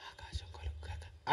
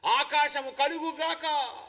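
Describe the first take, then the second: First: Weak, whispered mock command; barely audible, unhurried murmur; soft and slow. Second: Slow, ringing proclamation; forceful divine command. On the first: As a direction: whisper it slowly, with no force at all. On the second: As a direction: call creation into being with a drawn-out decree. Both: Shown as a demonstration. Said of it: "దేవుడేదో స్లోగా".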